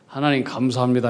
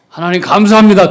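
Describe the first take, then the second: First: It is said at a normal, quieter volume. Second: It is said in a loud voice.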